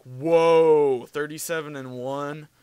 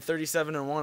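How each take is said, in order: First: Amazed whoa. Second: Said in the usual way. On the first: Retold or imitated. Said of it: "He was like".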